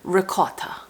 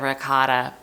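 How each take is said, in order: First: It is said in an Italian accent. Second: It is said in a plain American accent.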